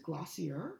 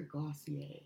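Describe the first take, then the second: First: "Glossier" ending in an -er sound; English-style Glossier. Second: "Glossier" ending in an -ay sound; French-style Glossier. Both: Shown as a demonstration. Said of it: "Is it Glossier or Glossier?".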